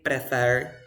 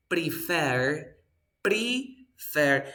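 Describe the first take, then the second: First: "prefer" run together with a short "preh" opening; wrong pronunciation. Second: "prefer" broken slowly into two clear syllables; correct pronunciation. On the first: Teacher shows what we never say, mispronounced word. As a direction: say "prefer" as PREH-fer, the learner's mistake. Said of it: "We never say prefer". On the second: Teacher models a word for the student, slow careful pronunciation. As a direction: say "prefer" as pre-FER, stretched and careful. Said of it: "we say". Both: Shown as a demonstration.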